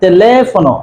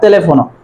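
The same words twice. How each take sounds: First: The stress falls on the second syllable. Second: The stress falls on another syllable. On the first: The speaker calls it right. "you have to give accent on the letter" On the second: The speaker calls it wrong. "not teléfono"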